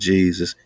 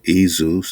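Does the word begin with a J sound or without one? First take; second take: J sound; without J. First: The word is said with a J sound. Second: The word is said without a J sound. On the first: The speaker calls it wrong. "not Jesus" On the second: The speaker calls it right. "Just take the J off"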